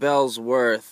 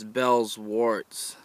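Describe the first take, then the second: First: The word ends with a 'th' sound. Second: The word ends with a 'ts' sound. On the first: The speaker calls it wrong. "it's not Bellsworth" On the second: The speaker calls it right. "it's Bellsworts"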